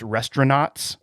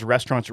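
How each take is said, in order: First: "restaurants" said as "restaura-nots"; imitating a daughter's "restaura-nots" for "restaurants"; child's mispronunciation. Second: Said in the usual way. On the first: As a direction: end "restaurants" in "nots", like a kid's mistake. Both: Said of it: "my daughter calls restaurants restaurants".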